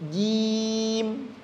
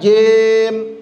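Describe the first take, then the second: First: The vowel sounds like i. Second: The vowel sounds like e. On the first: The speaker calls it right. "Kasrah bunyinya i" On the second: The speaker calls it wrong. "Kasrah bunyinya i. Jangan jem"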